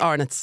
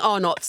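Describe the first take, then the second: First: The name is said the local Irish way. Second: The name is said the English way. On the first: This is how locals say it. The speaker calls it right. "girl, it's Arnott's" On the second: This marks the speaker as foreign. The speaker calls it wrong. "Don't be saying Arnott's, they'll know you're foreign"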